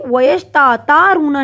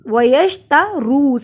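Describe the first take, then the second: First: The vowel in ta is drawn out long. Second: The vowel in ru is drawn out long. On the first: The speaker calls it wrong. "वयश ता तारूना नहीं पड़ा" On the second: The speaker calls it right. "सिर्फ रू को मैंने लंबा किया"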